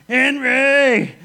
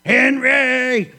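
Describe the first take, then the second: First: Loud, high squashed yell; pinned evangelist shouting for his brother again; cry again. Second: Loud, high strangled cry; pinned evangelist calling his brother; muffled cry. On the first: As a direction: bellow the name in dismay. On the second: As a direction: yell it from under the weight. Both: Retold or imitated. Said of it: "Benny says one thing".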